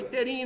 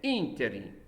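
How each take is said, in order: First: The stress is not on the third-to-last syllable. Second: The stress is on the third-to-last syllable. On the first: The speaker calls it wrong. "Não é interim" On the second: The speaker calls it right. "são proparoxítonas"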